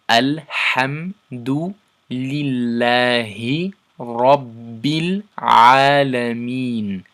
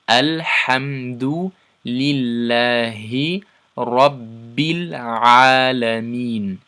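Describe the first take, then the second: No difference in how they are said.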